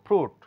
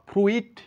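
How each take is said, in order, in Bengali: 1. শব্দে একটাই 'oo' স্বরধ্বনি আছে। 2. শব্দে একটা বাড়তি 'i' স্বরধ্বনি আছে। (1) "বলবো ফ্রুট" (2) "ফ্রুইট বলতে পারি না"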